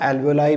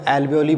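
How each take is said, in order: First: The word ends with an 'eye' sound. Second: The word ends with an 'ee' sound.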